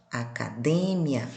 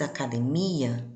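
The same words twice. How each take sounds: First: Academia stressed on DE, slow and low; Spanish stress. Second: Academia stressed on MI; Portuguese stress. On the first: Teacher showing students Spanish academia, slow, stress on DE. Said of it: "e no espanhol". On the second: Teacher showing students Portuguese academia, stress on MI. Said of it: "No português". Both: Shown as a demonstration.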